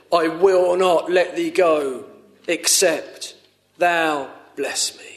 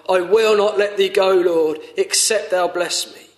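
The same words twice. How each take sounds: First: Said in the usual way. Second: Urgent heartfelt pleading; fervent plea. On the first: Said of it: "And Jacob said". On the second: Shown as a demonstration. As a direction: beg it as your own prayer to the Lord. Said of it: "Is that how you are?".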